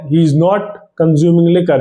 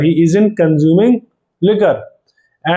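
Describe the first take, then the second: First: The words 'is not' are said in full. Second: The words 'is not' are contracted to 'isn't'.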